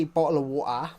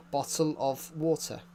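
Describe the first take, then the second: First: "bottle of water" with dropped t's; mock-British "bottle of water", t's swallowed. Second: "Bottle of water" word by word, t's sounded; careful British pronunciation. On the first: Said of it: "that's just a stereotype". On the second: Repeating how we say it, careful British pronunciation. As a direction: spell out "Bottle of water" with a full "of". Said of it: "That's how we say it". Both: Shown as a demonstration.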